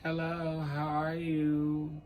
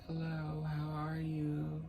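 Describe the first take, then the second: First: It is said with more vocal effort. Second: It is said with less vocal effort.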